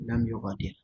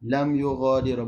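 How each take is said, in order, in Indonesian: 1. Kata terakhir berakhir pada konsonan tanpa vokal. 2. Kata terakhir berakhir dengan vokal 'a' yang ditambahkan. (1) "Dia kena baca lam yugha, dia kena mati" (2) "Kenapa salah saya baca lam yughadira?"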